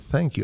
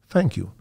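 First: The word begins with a TH sound. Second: The word begins with an F sound. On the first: "I just don't say thank you" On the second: "Use F instead of TH"

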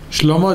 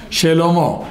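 First: The first consonant has no vowel after it. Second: A short vowel follows the first consonant. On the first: This is casual everyday speech. The speaker calls it wrong. "זה מדברים עם החברים" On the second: This is the formal reading style. The speaker calls it right. "בתורה צריך לקרוא שלמה"

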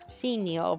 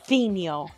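First: The name begins with a plain s sound. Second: The name begins with a lisped th sound.

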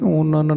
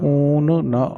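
First: The syllables are run together as one word. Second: The two words are said as separate words. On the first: The speaker calls it wrong. "ਊਨਨ ਨਹੀਂ ਕਹਿਣਾ" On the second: The speaker calls it right. "ਦੋਏ ਸ਼ਬਦ ਵੱਖ ਵੱਖ ਪੜ੍ਹਨੇ ਹਨ ਜੀ"

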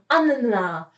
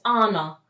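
First: The n sound is held long, doubled. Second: The n sound is short and single. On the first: "tak jak w języku polskim Anna" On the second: "zawsze jest Anna"

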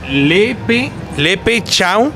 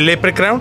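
First: It is pronounced with Spanish, Mexican-style sounds. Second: It is pronounced with English-style sounds. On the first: This is the group's own adapted name. "lo mexicanicé" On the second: This is the original name of the creature. "en vez de"

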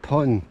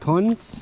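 First: The name ends without any s sound. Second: The name ends with an audible s sound. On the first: The speaker calls it right. "sondern Pon" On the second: The speaker calls it wrong. "Nicht Pons"

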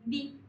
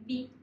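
The two takes are said the same way.

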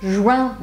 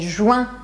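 No difference in how they are said.

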